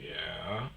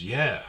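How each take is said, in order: First: Low, soft questioning yeah; yeah discret. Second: Said in the usual way. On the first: Retold or imitated. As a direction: imitate a quiet, unsure yeah, rising at the end. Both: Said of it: "Not like that".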